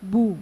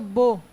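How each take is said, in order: First: The lips are fully rounded, giving 'u'. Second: The lips are only partly rounded, giving 'o'. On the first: The speaker calls it right. "अगर आप सही गोल करते हैं" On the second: The speaker calls it wrong. "होंठ सही गोल नहीं हुए"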